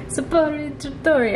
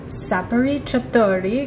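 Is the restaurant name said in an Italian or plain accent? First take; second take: Italian; plain. First: The name is said in an Italian accent. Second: The name is said in a plain accent.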